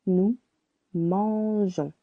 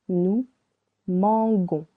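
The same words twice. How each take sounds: First: "Nous mangeons" with zh before the nasal ending; correct soft G. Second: "nous mangons" with g as in good before the nasal ending; hard G mispronunciation. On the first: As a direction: say "mangeons" with a soft zh, mahn-zhon. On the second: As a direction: say "mangons" with a hard g, mahn-gon. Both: Shown as a demonstration. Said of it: "Without letter E, it would sound".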